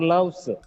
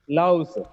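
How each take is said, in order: First: The word ends with an s sound. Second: The word ends with a z sound. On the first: The speaker calls it wrong. "it's not loves" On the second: The speaker calls it right. "it gets z sound at the end"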